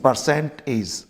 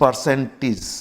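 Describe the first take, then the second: The two takes are said the same way.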